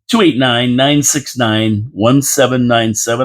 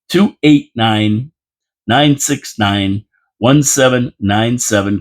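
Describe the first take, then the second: First: The number is read at a fast pace. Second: The number is read at a slow pace. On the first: "I know I talk fast" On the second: "I'm going to say that slower"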